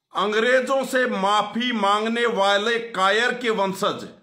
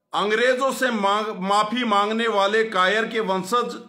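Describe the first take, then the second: No difference in how they are said.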